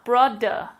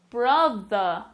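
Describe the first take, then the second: First: The middle consonant is a hard d sound. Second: The middle consonant is a soft th sound. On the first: The speaker calls it wrong. "Let's see how it sounds with a D. ... It's a much harsher sound" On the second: The speaker calls it right. "this time with the T H in the middle of the words"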